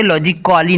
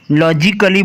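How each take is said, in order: First: लॉजिकली with a full 'kaa-lee' ending; गलत उच्चारण. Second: लॉजिकली with silent A, short 'kuh-lee'; सही उच्चारण. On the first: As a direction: sound out the A in लॉजिकली as 'logic-aa-lee'. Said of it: "नहीं हम बोल सकते". (लॉजिकली में 'का-ली' बोलकर गलत उच्चारण) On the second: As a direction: drop the A, say लॉजिकली as 'logic-klee'. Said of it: "लॉजिकली बोलेंगे". (लॉजिकली में A साइलेंट, छोटा 'क-ली') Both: Shown as a demonstration.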